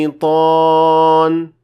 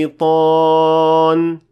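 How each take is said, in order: Both takes have the same delivery.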